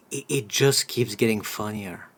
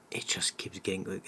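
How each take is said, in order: First: Said in the usual way. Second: Unvoiced whispered repeat; whispering. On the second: Real, not acted.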